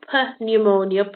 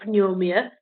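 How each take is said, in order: First: A P sound is pronounced at the start. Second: No P sound is pronounced at the start. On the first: The speaker calls it wrong. "We don't go per pneumonia" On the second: The speaker calls it right. "so the P is silent"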